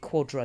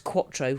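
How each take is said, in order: First: The middle consonant sounds like a D. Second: The middle consonant is a clear T. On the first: This is how others pronounce it. The speaker calls it wrong. "They pronounce it Quadro, because Americans pronounce T's like D's" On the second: It matches the word for four. The speaker calls it right. "So it's Quattro, like four"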